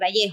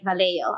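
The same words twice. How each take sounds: First: It is said with a Spanish pronunciation. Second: It is said with an anglicized pronunciation. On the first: The speaker calls it right. "I would say Vallejo" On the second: The speaker calls it wrong. "I wouldn't say Vallejo"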